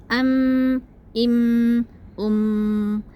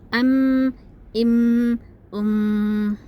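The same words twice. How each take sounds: Both takes have the same delivery.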